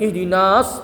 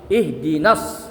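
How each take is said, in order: First: The vowel before the s is long. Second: The vowel before the s is short. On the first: The speaker calls it wrong. "Dan ihdinas" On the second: The speaker calls it right. "tapi ihdinas ya"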